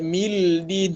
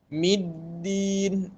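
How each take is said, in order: First: An l sound comes before the d. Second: The m runs straight into a doubled d. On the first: The speaker calls it wrong. "tak ada mildin, tak ada" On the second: The speaker calls it right. "masuk terus pada dal"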